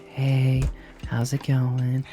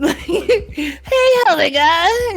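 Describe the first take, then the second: First: It is said in a normal voice. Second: It is said in a weird voice.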